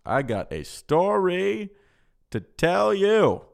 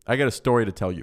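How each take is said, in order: First: "I got a story to tell you" stretched slow and high; drawn-out announcement. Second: Said in the usual way. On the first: Pretend. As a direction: draw out "story" and "tell you", pitched up, hammed-up. Same words repeated as hammed-up announcement.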